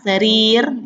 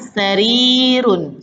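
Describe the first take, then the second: First: The word ends bare, without final vowel. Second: The word ends with a vowel and n.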